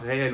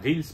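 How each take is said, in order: First: It is pronounced like the French word réel. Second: It is pronounced like the English word reels. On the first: The speaker calls it wrong. "on ne dit pas réel" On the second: The speaker calls it right. "on dit bien reels, parce que reels ça veut dire bobine en anglais"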